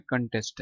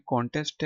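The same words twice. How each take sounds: First: American "कंटेस्ट" with an unrounded first vowel; American-accent "कंटेस्ट"; American pronunciation. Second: British "कॉन्टेस्ट" with a rounded o; British-accent "कॉन्टेस्ट"; British pronunciation. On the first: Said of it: "American accent में कंटेस्ट". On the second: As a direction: say "कॉन्टेस्ट" the British way, open o first. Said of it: "ये British accent में". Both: Shown as a demonstration.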